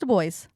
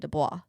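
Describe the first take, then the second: First: The name is pronounced in a non-French style. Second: The name is pronounced in a French style. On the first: The speaker calls it right. "But it's Du Bois" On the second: The speaker calls it wrong. "I have always pronounced his name Dubois because it's French"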